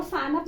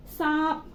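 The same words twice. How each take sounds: First: "सानप" as "saa-nap", n sounded fully; błędna wymowa. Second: "सांप" as one nasalised syllable; long aa through the nose, then p in "सांप"; poprawna wymowa. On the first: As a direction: give "सानप" a separate "nap" syllable. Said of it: "नहीं पढ़ेंगे". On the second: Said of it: "इसको सानप नहीं पढ़ेंगे". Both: Shown as a demonstration.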